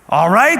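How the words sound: It is said in a stern, exasperated tone. It is said like a parent scolding a child. The speaker calls it right. "Kind of the way you talk to your kids sometimes"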